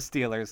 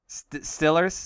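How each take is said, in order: First: The first vowel is a long 'ee' sound. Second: The first vowel is a short 'i' sound. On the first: The speaker calls it wrong. "you're pronouncing it wrong" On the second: The speaker calls it right.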